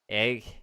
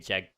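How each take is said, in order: First: The word starts with a plain vowel. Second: The word starts with a J sound. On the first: "it's gonna be pronounced like uh, egg" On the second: "it could quite literally have the J sound"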